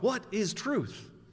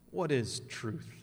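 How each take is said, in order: First: It is asked in an earnest, curious tone. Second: It is asked in a sarcastic, dismissive tone.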